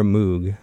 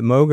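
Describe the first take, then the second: First: "Moog" with an OO, rhyming with fugue; OO sound in Moog. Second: "Moog" with a long O, like rogue. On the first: Host offers co-host the second pronunciation, "Moog" with OO. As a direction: say "Moog" as "moog", long oo. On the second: Host offers co-host the first pronunciation, "Moog" with long O. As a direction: say "Moog" as "mohg". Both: Shown as a demonstration. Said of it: "do you say it Moog or Moog".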